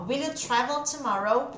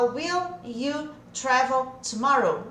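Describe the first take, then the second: First: "will you" joined as "willee-you"; fluent question with "will you" run together; linked WILL YOU. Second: Word-by-word "will you travel tomorrow"; unlinked "will you", each word separate; separated WILL YOU. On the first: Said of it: "junta esse will com you". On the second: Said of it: "fica errado se eu falar". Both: Shown as a demonstration.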